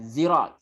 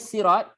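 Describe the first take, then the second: First: The word begins with a z sound. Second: The word begins with a plain s sound. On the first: This is another variant form of the word. "Dan juga zai" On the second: This is the original form of the word. "asalnya sirat sin"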